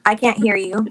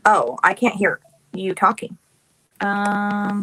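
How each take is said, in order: First: Raised voice over bad line; loud, insistent, can't hear; calling out. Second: Raised voice over bad line; louder, repeating the problem; calling out. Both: Real, not acted.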